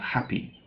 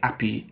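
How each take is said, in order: First: The word starts with a clear h sound. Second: The word starts without an h sound. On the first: The speaker calls it right. "instead of happy" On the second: The speaker calls it wrong. "don't pronounce the H in words. So they say happy"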